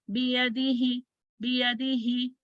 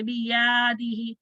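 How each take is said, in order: First: बियदिही with a quick, short य; short vowel. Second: बियादिही with the या stretched long; wrongly lengthened vowel. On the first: Teacher corrects the mistake for students, short य. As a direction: keep the य in बियदिही to half a count. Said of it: "no, this is wrong". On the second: Teacher shows students the mistake, over-long या. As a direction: drag out the middle या of बियादिही. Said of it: "इसको ऐसे नहीं पढ़ेंगे". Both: Shown as a demonstration.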